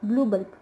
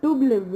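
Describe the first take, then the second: First: The first word starts with a 'bl' cluster. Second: The first word starts with a plain 'd' sound. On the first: The speaker calls it right. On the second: The speaker calls it wrong. "டூ பல்ப் இல்லை"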